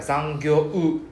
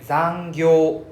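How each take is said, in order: First: Zangyo-u with a separate U sounded at the end; mock the overdone final U in zangyo-u; wrong zangyo-u. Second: Zangyo, the final O dragged out, no U; louder model zangyo ending on a held O; zangyo with long O. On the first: Teacher showing the class the wrong zangyo-u. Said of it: "We don't need to, like". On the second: Teacher showing the class the right zangyo. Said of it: "we just need to drag out only". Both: Shown as a demonstration.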